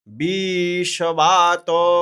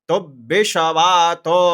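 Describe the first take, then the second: First: The vowel in 'bi' is long. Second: The vowel in 'bi' is short. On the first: "अगर वहीं पे री की तरह इसमें भी दीर्घ होता" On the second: "बी पर रुक रहे हैं"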